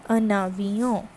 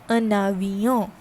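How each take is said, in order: No difference in how they are said.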